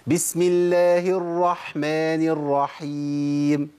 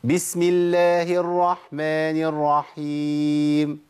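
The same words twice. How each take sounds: First: Slow chanted basmala with audible ح in الرحمن; careful Tajweed chant, breathy ح in الرحيم; clear ح recitation. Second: Slow chanted basmala with the ح in الرحمن barely sounded; slack, swallowed ح in a drawn-out recitation; faulty weak ح. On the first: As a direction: draw out الرحمن الرحيم, sounding each ح from mid-throat. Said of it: "سمع صوت الحاء؟". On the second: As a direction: glide over each ح in الرحمن الرحيم. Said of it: "اسمعوا الخطأ بقى". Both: Shown as a demonstration.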